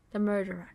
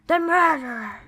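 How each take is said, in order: First: Said in the usual way. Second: Loud, higher mock-horror cry; dramatic exclamation. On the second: Player repeating the story's reveal of the murderer, dramatic exclamation. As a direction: blurt it out big and melodramatic.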